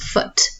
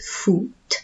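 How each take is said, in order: First: The vowel is a short English-style 'oo'. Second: The vowel is a clear Spanish 'u' sound. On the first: The speaker calls it wrong. "so it's not foot" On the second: The speaker calls it right. "it's foot. Okay, the U sound"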